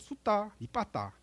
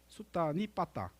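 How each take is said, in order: First: The word is grouped with a break after 수다. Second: The word is grouped with a break after 수다니. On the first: The speaker calls it right. "수다 니 빠따죠" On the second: The speaker calls it wrong. "수다니 빠따가 아니고"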